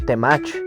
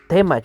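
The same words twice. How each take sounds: First: The stress is on the last syllable. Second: The stress is on the first syllable. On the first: The speaker calls it wrong. "no Temach" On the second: The speaker calls it right. "la pronunciación correcta, que es Temach"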